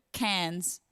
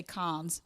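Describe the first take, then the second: First: "cans" with the front a of "cat", no r; Australian pronunciation. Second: "cons" with an open ah vowel; imitated American pronunciation. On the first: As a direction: say "cans" as Australians say the city Cairns. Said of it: "when it comes to cans". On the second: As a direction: say "cons" as an American reads Cairns. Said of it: "you'd say cons". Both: Shown as a demonstration.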